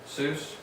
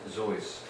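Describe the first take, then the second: First: The name begins with an S sound. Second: The name begins with a Z sound.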